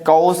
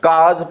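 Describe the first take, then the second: First: It is said like 'kaus' with an s ending. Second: It is said like 'kaz' with a z ending. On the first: The speaker calls it wrong. "कौस हमारा गलत हो जाएगा" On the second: The speaker calls it right. "काज हमारा सही रहेगा"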